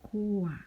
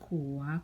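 First: The word is said with a falling tone. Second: The word is said with a rising tone.

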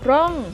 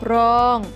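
First: The syllable is said with a falling tone. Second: The syllable is said with a level mid tone. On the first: "ร่องเป็นเสียงโท" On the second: "รองเป็นเสียงสามัญ"

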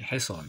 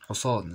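First: The first vowel is an i sound. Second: The first vowel is a u sound. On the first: This is the standard form of the word. The speaker calls it right. "لا هو اسمه ايه؟ حصان" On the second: This is the everyday colloquial way of saying it. The speaker calls it wrong. "اللي مضموم حصان، زي ما احنا بنقول"

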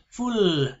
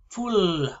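Both takes have the same delivery.

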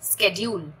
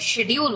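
First: The word begins with an 'sk' sound. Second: The word begins with an 'sh' sound. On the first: "American English में इसे स्केड्यूल बोला जाता है" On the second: "हम लोग इसे शेड्यूल बोलते हैं"

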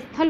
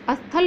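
First: The word starts directly with the s. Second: A short vowel is added before the s. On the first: The speaker calls it right. "स्थल होता है" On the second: The speaker calls it wrong. "अस्थल नहीं होता"

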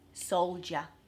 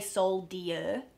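First: The middle has a J sound. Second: The middle has a plain D sound, as spelled. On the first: The speaker calls it right. "It's almost like there's a J" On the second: The speaker calls it wrong. "We don't say soldier, even though it's spelled that way"

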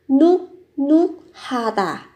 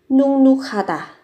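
First: The first syllable ends with a k sound. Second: The first syllable ends with an ng sound. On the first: The speaker calls it wrong. "Từ này viết là núc núc ha tả" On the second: The speaker calls it right. "Phát âm là nung núc ha tả"

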